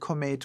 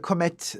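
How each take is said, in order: First: The last syllable rhymes with 'mate'. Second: The last syllable rhymes with 'met'. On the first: The speaker calls it right. "I do prefer to call it comate" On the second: The speaker calls it wrong. "it just sounds so vulgar to me"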